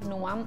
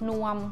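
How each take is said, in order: First: The syllable is said with a high tone. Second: The syllable is said on a level mid tone. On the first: "เป็นรูปโทแล้วก็เสียงตรี" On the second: "สามัญตรงกันเสียงสามัญรูปสามัญ"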